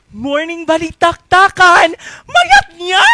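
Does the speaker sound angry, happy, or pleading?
happy. It is said in a happy way.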